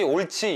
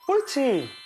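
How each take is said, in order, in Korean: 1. 평소 말하듯이 평평하게 말했어요. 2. 더 높고 밝은 톤으로 말했어요. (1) "이거랑 똑같이 옳지 이렇게 얘기해봤자 모르는 거예요" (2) "조금 톤을 바꿔서"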